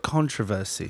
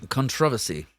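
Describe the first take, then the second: First: CONTROVERSY with the stress on the first syllable; usual American pronunciation. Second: CONTROVERSY stressed on the second syllable; odd British pronunciation. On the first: Host correcting the co-host's word, stressed CON-tro-ver-sy. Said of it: "I think they just call it". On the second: Co-host insisting on his version, stressed con-TROV-ersy. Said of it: "that's a weird way that nobody says it". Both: Shown as a demonstration.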